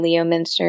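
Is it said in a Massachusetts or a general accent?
general. It is said with a general, non-local pronunciation.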